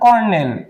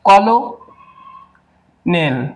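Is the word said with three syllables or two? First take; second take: two; three. First: It is said in two syllables, like kernel. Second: It is said in three syllables, ko-lo-nel. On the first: It is the standard pronunciation. The speaker calls it right. "এটার কিন্তু সঠিক উচ্চারণ কর্নেল" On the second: It follows the spelling to help remember it. The speaker calls it wrong. "এটাকে যদি আমরা মনে রাখি যে কলোনেল"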